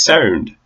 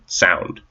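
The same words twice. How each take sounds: First: An Irish accent, with a smaller vowel. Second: A North American accent, mouth wide open. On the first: "for an Irish person, it's sound" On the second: "for North Americans, we just say sound"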